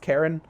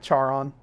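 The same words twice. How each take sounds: First: The name sounds like Karen. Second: The name does not sound like Karen. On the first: The speaker calls it right. "but it's actually pronounced Charon" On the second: The speaker calls it wrong. "I know it looks like Charon, and that's how I pronounced it before"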